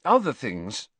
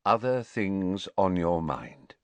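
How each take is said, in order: First: Higher, faltering repeat of OTHER THINGS; faltering excuse. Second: Slow, level, measured completion; supply the missing words slowly and coolly; Dumbledore, coolly finishing. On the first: Pupil runs out of excuses before headmaster, falteringly. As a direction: let the excuse peter out, pitched up. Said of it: "he said, a little desperately". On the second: Headmaster finishes pupil's sentence for him, cool and measured. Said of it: "Dumbledore finished the sentence for him". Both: A narrator's reading.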